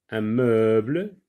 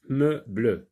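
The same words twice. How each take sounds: First: Said in the usual way. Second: "Meuble" split into meu-ble; two separate syllables. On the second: Shown as a demonstration. Teacher shows the last syllable, "Meuble" said as meu, then ble. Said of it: "ne se compose que de deux syllabes".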